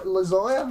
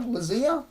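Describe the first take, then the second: First: Lazia said luh-ZY-uh, rising; tentative pronunciation. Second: Lazia said luh-ZEE-uh, higher and rising; tentative pronunciation. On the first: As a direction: try Lazia with a long "eye" in the middle, questioning. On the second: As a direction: try Lazia with a long "ee" in the middle, questioning. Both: Shown as a demonstration. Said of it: "can't say someone's name properly".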